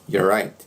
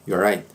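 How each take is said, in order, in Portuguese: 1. É rápido, com cerca de metade dos sons omitidos. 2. É rápido, com cerca de metade dos sons omitidos.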